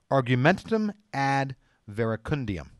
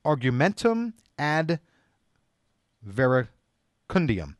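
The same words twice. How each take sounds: First: Said in the usual way. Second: Argumentum ad verecundiam said very slowly, each syllable apart; slow, careful Latin for the audience; carefully spelled out term. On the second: Shown as a demonstration. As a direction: pronounce the Latin slowly and deliberately. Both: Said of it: "I came across a very interesting word".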